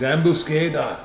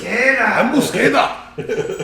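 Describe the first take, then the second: First: It is said in the speaker's plain voice. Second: It is said in a put-on Japanese accent.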